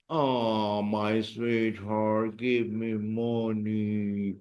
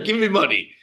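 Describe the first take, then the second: First: Soft, slow sweetheart plea; sweet request. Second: Said in the usual way. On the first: Shown as a demonstration. Teacher sweetly begging for money. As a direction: coax it sweetly and slowly. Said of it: "How will you say". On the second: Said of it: "So we should say".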